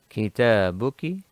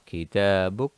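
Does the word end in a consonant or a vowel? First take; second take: vowel; consonant. First: The word ends with a short vowel. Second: The word ends with a consonant. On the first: The speaker goes on without stopping. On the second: The speaker stops after the word.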